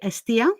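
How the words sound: The name is given a Greek pronunciation. "In Greek, we say Estia"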